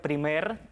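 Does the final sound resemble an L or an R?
R. The final R is a clear R sound.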